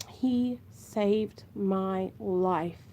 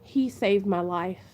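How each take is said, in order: First: Very slow and softer, welling up as she repeats it; moved repeat. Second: Said in the usual way. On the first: Real, not acted. Mom telling viewers her son saved her, slow and hushed. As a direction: let it sink in, slow and hushed.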